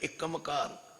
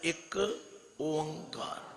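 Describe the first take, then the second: First: It is run together with an m link. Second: It is split into separate parts, ik and onkar. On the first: The speaker calls it wrong. "ਕੋਈ ਪੜ੍ਹਦਾ ਇੱਕਮਕਾਰ ... ਨਹੀਂ ਨਹੀਂ" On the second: The speaker calls it right. "ਇਹਨੂੰ ਤਿੰਨ ਹਿੱਸਿਆਂ ਵਿੱਚ ਵੰਡ ਦਿਓ"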